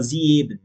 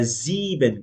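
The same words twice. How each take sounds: First: "sieben" said as "zi-e-ben"; wrong, E pronounced. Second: "sieben" as "ziiben"; long I, silent E. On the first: Teacher repeating the mistake to avoid, "sieben" with extra E. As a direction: sound the E after the I in "sieben". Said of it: "a gente não vai falar". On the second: Teacher correcting, "sieben" with the first E silent. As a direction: say "sieben" with one long I before the B. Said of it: "como se a gente não tivesse esse E". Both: Shown as a demonstration.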